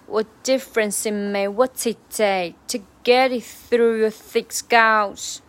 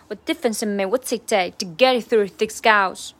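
First: It is said slowly and deliberately. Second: It is said at a normal, quick speed. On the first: "然后是慢速版" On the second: "常素版"

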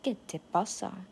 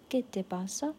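First: It sounds annoyed and confrontational. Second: It sounds caring and concerned.

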